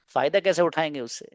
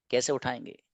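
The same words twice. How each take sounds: First: Said in the usual way. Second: Dropped much softer, an echo to themselves; soft repeat. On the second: Real, not acted. Teacher softly repeating the question to his students. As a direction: let the question sink in quietly.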